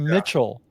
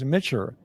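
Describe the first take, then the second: First: The name ends with a clear L sound. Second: The name ends with an R-like sound. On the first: This is the name as its owner says it. "my name is" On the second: This is how speakers who struggle with L said it. "when I was in Japan, it was"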